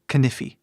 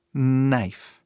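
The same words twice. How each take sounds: First: Knife said wrongly as "kinifi", k sounded. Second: Knife said as "naif", silent k; right knife. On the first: Teacher mocking a learner's mistake, k voiced. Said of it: "Não falamos knife, ou pior". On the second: Teacher modelling Knife for students, silent k. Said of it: "Knife é a pronúncia dessa palavra". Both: Shown as a demonstration.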